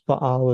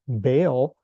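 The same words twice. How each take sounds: First: It is said with the original Hebrew pronunciation. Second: It is said with the familiar English pronunciation. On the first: This is the original form. "is the correct Hebrew pronunciation" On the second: This is the commonly known form. "you may have um, known or heard the word Baal"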